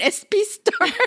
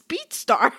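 First: It is said with a Puerto Rican accent. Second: It is said without a Puerto Rican accent. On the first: "My Puerto Rican brain is saying a speedstar" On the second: "My other brain is saying, no, it's speedstar"

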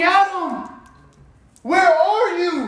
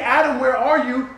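First: It sounds loving and longing. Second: It sounds angry and harsh.

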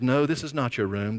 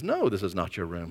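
First: It is said in a calm, plain tone. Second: It is said in a firmer tone.

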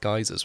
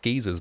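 First: The word is said in an American pronunciation. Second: The word is said in an English pronunciation. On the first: "but American it's geysers" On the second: "in English it's geysers"

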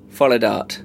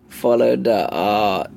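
First: The end is said as one syllable, dart. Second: The end is said as two syllables, da art. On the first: The name reads as follow plus dart. "Like follow dart" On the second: The name reads as following the art. "Or is it like follow da art?"

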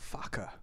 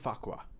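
First: The name ends with a 'ka' sound. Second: The name ends with a 'kwa' sound. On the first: The speaker calls it right. "It's Faka" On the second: The speaker calls it wrong. "it's not even Fakwa"

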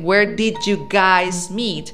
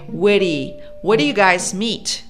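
First: Did you is said fully and clearly. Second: Did you is reduced and run together. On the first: "Instead of saying" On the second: "You say"

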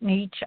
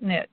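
First: The word does not rhyme with rich. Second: The word rhymes with rich. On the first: This is how the other person says it. "You call it niche" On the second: This is how the speaker prefers to say it. "I call it niche, because a niche makes you rich. So I like the rhyming"

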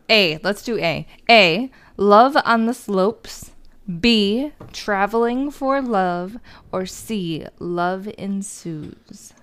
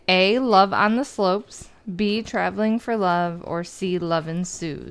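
First: It is spoken in a put-on accent. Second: It is spoken in a normal everyday voice. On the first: "you need to enjoy my accent" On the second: "it was in your normal voice"

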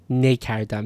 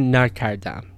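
First: The first syllable has the vowel 'e'. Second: The first syllable has the vowel 'a'. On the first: The speaker calls it wrong. "You wouldn't say ne kardam. Ne kardam sounds wrong" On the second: The speaker calls it right. "So you would still say na kardam"

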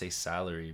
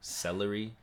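First: The first syllable sounds like 'sal'. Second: The first syllable sounds like 'sel'. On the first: The speaker calls it right. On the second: The speaker calls it wrong.

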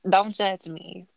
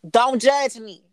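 First: It is said at a normal volume. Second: It is said loudly, like yelling.

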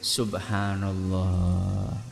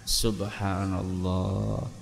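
No difference in how they are said.

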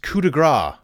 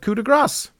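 First: The final S sound is left silent. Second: The final S sound is clearly pronounced. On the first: The speaker calls it wrong. "That's how I used to pronounce it until I heard this" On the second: The speaker calls it right. "you do pronounce the S at the end of coup de grâce"

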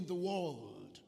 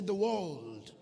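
First: It is said at normal volume. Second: It is said much louder.

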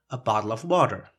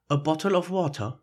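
First: It is spoken in an American English accent. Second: It is spoken in a British English accent. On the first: "American English" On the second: "the British English"

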